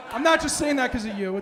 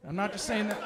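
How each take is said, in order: First: Louder, with "not" punched hard; louder jab at heckler. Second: Said in the usual way. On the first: Real, not acted. Comic to heckler, "not" shouted with stress. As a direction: land the word "not" hard and loud at the heckler.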